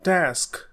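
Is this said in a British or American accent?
American. The vowel is a short American 'a'.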